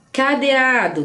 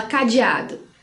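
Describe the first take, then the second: First: "Cadeado" as ca-de-a-do, clear E; spelling pronunciation. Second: "cadeado" as ca-ji-a-do; colloquial pronunciation. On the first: Teacher models a word spelt with E, spelling pronunciation. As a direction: sound the written E in "Cadeado". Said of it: "palavrinhas que são com E". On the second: Teacher shows how we say cadeado, colloquial pronunciation. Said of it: "que a gente fala cadeado". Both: Shown as a demonstration.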